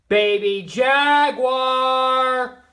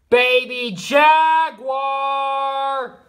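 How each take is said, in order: First: It is called louder. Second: It is called loudest of all.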